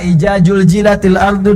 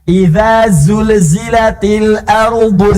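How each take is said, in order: First: The consonants are said as j sounds. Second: The consonants are said as dz and z sounds. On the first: The speaker calls it wrong. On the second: The speaker calls it right.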